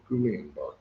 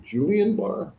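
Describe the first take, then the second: First: "Guillain-Barré" with a hard G at the start; hard G pronunciation. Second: "Julian Barr" with a soft J sound at the start; soft G pronunciation. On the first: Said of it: "It's the G hard". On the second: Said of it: "I don't know if you say it". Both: Shown as a demonstration.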